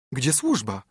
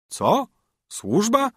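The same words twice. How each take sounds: First: Said in the usual way. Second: Wysoko, drwiąco: „Służba?” z mocno wznoszącą intonacją; wyśmiej jej pytanie jak zaskoczony żebrak; zdziwione niedowierzanie. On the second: A narrator's reading. Beggar mocks her question. (grajek wyśmiewa pytanie królewny o służbę, z drwiącym zdziwieniem)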